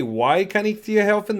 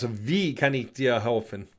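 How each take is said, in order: First: Questioning imitation of "Why" said for German "wie"; mispronounced German. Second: Lower, softer demo of "Wie" pronounced "vee"; corrected German pronunciation. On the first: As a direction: say "Why" with an English W, as in the English question word. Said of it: "Did you say". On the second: Shown as a demonstration.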